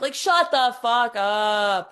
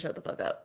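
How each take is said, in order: First: Slow, loud, fed-up snap; exasperated. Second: Quiet whispered repeat of shut the fuck up; whispered aside. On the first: Fed up with the climbers, a slow, loud exasperated snap. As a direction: say it like you've had enough. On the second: Apologizing to the viewer for repeating herself, a quiet whispered aside. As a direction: breathe it out as a sheepish aside. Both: Real, not acted.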